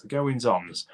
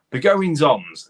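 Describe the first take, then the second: First: Said in the usual way. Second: Goings-ons punched higher and louder; emphatic goings-ons. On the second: Shown as a demonstration. Searching for the phrase, then lands it.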